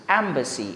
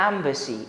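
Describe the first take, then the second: No difference in how they are said.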